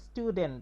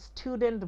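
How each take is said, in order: First: The t is plain, without a puff of air. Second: The t is breathy, with a puff of air. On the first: The speaker calls it right. "এখানে কিন্তু টি গুলা টি এর মতো উচ্চারণ হয়েছে, ঠ এর মতো হয়নি" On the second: The speaker calls it wrong. "যদি কেউ স্টুডেন্ট বলে ঢং করে, তখন কিন্তু আবার ভুল হবে"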